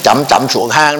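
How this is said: The tones follow a north-central regional accent.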